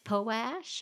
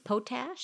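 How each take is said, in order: First: The T sound is dropped from the word. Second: Every sound, P and T included, is pronounced.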